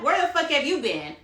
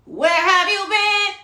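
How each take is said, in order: First: Said in the usual way. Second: Higher, louder and slow, stressing have; emphatic demand. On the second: Real, not acted. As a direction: drag each word out and demand an answer. Repeats the question louder.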